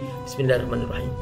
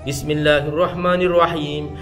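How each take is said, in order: First: The phrase is recited softly and quietly. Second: The phrase is recited loudly and clearly. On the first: This follows the Hambali school. "bismillahnya di ditipiskan, tidak nyaring" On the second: This follows the Syafi'i school. "Bismillahnya diringkan"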